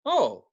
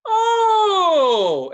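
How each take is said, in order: First: Said in the usual way. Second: Huge high drawn-out "Oh!"; loudest in the bar. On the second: Retold or imitated. Drunk guy realizing who she is, loudest in the bar. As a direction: bellow it long and high, falling away. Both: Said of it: "as loud as, I'm the loudest".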